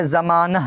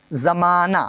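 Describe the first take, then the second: First: زمانہ with a breathed h at the end; as written, h sounded. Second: زمانہ ending in an open "naa"; silent final h. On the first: Teacher reads it as spelt, زمانہ ending in h. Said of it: "لکھتے ہیں کہ". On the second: Teacher shows the h is unheard, زمانہ ending in "aa". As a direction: let the last ہ of زمانہ go unheard. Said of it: "آخر میں کیا سمجھ میں نہ آئے". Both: Shown as a demonstration.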